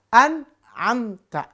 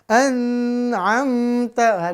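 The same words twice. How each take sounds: First: The n is short and clearly pronounced. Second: The n is held with a nasal hum. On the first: The speaker calls it right. "Harus izhar" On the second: The speaker calls it wrong. "yang bacanya jadi dengung"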